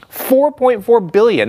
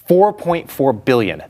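First: "Four point four billion" higher, louder and slow; each word hit with outrage; indignant emphasis. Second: Each word weighted and slow; "Four point four billion" said slowly and evenly; slow emphasis. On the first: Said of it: "It just completely wiped that out". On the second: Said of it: "cost U S companies was four point four". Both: Real, not acted.

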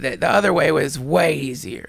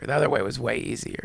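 First: Said in the usual way. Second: Dropped soft, low repeat; the repetition muttered low to himself; quiet repeat. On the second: Real, not acted. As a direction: let it sink as a private admission.

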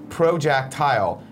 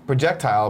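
First: "projectile" said PRO-jack-tile. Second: Said in the usual way. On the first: Shown as a demonstration. Correcting the screen name, "projectile" said slowly as pro-jack-tile. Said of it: "with Jack instead". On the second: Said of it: "It's like projectile".

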